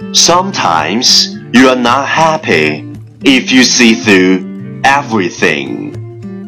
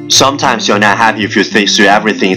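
First: The sentence is spoken at a moderate pace. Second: The sentence is spoken very fast in one breath.

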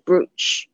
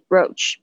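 First: The vowel is pronounced as an 'oo' sound. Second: The vowel is pronounced as an 'oh' sound. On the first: The speaker calls it wrong. "不是brooch" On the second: The speaker calls it right. "他这边的OO 是发那个O 的声音，所以呢就是应该要念的是brooch"

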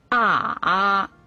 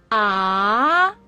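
First: The pitch dips low then comes up. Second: The pitch rises from middle to high. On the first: "三声拐弯" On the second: "二声扬"

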